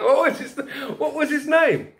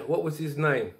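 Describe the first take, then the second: First: Laughing. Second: Said in the usual way. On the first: Real, not acted. Bursts out laughing remembering name.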